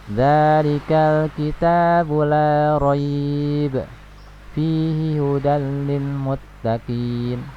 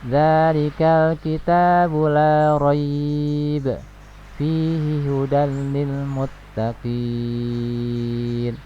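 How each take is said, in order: First: The final vowel of muttaqin is held briefly. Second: The final vowel of muttaqin is stretched long. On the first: The speaker calls it wrong. "ini empat ini dua ... ini salah ya" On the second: The speaker calls it right. "Seperti ini yang benar ya ... di sini enam harokat"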